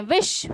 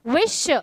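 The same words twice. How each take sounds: First: Said in the usual way. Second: विश drawn out slowly into vi and sh; two stresses. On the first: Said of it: "दो जगह पर हम stress". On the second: Shown as a demonstration. Teacher showing where stresses fall, विश split in two. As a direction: split विश in two, leaning on each part. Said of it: "दो जगह पर हम stress दे रहे".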